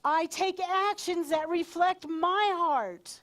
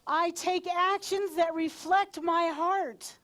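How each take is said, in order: First: Slow, loud declaration leaning on "my"; energized, high, with "my" punched; stress on "my". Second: Slow, loud declaration leaning on "actions"; energized, high, with "actions" punched; stress on "actions". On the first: Leader giving a standing group words to echo, stress on "my". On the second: Leader giving a standing group words to echo, stress on "actions". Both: Shown as a demonstration. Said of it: "emphasis on different words".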